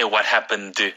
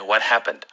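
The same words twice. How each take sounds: First: Every sound in 'happened' is pronounced separately and fully. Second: 'Happened' is said quickly with its ending reduced. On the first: The speaker calls it wrong. "don't say what happened" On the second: The speaker calls it right. "Say what happened"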